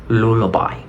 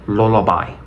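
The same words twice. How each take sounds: Both takes have the same delivery.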